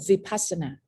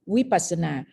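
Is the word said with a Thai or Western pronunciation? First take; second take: Western; Thai. First: It is said with a Western pronunciation. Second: It is said with a Thai pronunciation. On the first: "when you go to the the into the to the West, they call Vipassana" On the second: "if we pronounce in our in our word, we call Vipassana"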